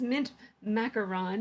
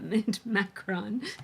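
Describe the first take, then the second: First: The word macaron has three syllables. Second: The word macaron is squeezed into two syllables. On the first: The speaker calls it right. "it's it's mint macaron" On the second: The speaker calls it wrong. "not mint macron"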